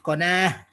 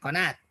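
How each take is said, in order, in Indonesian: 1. Kata ini berakhir dengan bunyi h yang lembut. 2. Kata ini berakhir dengan bunyi t yang jelas. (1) "agak susah kalau nyebut konah"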